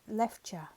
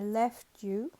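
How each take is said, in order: First: The t and you merge into a ch sound. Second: The t and you are said separately.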